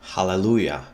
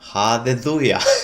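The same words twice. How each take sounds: First: The word is said with clear L sounds. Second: The word is said with TH sounds replacing L.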